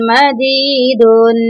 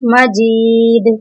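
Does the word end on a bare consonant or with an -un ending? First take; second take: -un ending; bare consonant. First: The word ends with a nasal -un sound. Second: The word stops on a bare final consonant. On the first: The word is read in continuous recitation. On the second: The reciter stops on this word.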